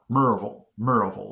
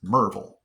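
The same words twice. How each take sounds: First: Merville drawn into "MUR-uh-vul"; three-syllable mispronunciation. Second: Merville squeezed to "MUR-vul"; local pronunciation. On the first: Newcomer still saying it wrong, MUR-uh-vul. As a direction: give Merville an extra uh in the middle. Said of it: "three syllables". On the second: How a local says it, two-part MUR-vul. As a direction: say Merville in two parts with a swallowed ending. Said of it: "it's just". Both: Shown as a demonstration.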